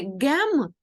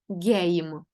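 First: The vowel is a short 'eh' sound. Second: The vowel is an 'ay' sound. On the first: The speaker calls it wrong. "Тому не гем" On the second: The speaker calls it right. "а гейм"

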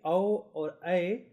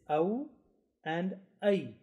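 First: The diphthongs are short and not elongated. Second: The diphthongs are softly elongated. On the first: The speaker calls it wrong. "It shouldn't be au or ay" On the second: The speaker calls it right. "The correct way of pronunciation is au and ay"

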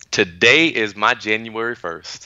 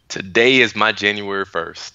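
First: It is said with more energy and enthusiasm. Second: It is said with ordinary, lower energy.

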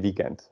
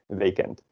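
First: The first vowel sounds like English weekend. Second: The first vowel is a Dutch long ee. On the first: "But we say weekend because it is from English" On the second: "if you would just pronounce it like correctly as it is written in Dutch"

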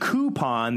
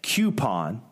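First: The word begins with a plain 'koo' sound. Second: The word begins with a 'kyoo' sound. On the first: The speaker calls it right. "instead of it being coupon" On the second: The speaker calls it wrong. "they're saying coupon. ... Is there a Q on the front of that"

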